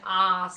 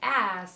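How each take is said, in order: First: It is said with an Australian vowel. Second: It is said with an American vowel. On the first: Some listeners could not understand it. "instead of saying" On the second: Listeners can now understand it. "Americanize some of the words"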